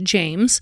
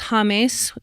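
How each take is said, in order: First: The name is said with an English pronunciation. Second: The name is said with a Spanish pronunciation. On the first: This is how the speaker's own people would say it. "we would pronounce it James" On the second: This is how people in the player's country say it. "His name's James"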